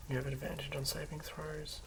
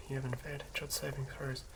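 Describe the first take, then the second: No difference in how they are said.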